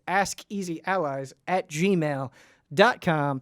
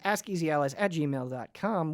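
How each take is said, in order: First: The address is said more slowly. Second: The address is said very quickly. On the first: "One more time" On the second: "I said that very fast"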